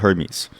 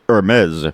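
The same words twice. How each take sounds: First: The name is said in a plain, unpolished way. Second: The name is said in a fancy, refined way. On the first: The speaker is not pretentious. "I call it Hermes" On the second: Rich people say it this way. "The rich people say Hermes"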